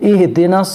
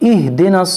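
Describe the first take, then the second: No difference in how they are said.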